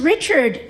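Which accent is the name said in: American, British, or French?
American. The name is said in a plain American accent. "he's fine here"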